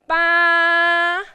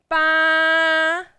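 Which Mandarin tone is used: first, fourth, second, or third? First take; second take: first; first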